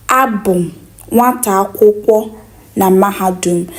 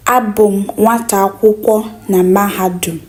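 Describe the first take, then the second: No difference in how they are said.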